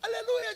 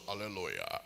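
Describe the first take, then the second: First: It is spoken in a thin, high voice. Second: It is spoken in a thick, deep voice. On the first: Said before receiving the new title. "ajoelha falando fino" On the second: Said after receiving the new title. "levanta falando grosso"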